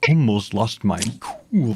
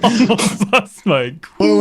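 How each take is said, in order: First: It is read in a put-on character voice. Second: It is read in a normal speaking voice.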